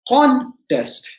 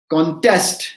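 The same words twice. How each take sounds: First: The stress is on the first syllable. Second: The stress is on the second syllable. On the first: It names a competition. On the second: It means challenging or opposing something.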